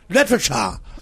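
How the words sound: It is pronounced with English sounds. "en anglais, tu dis literature"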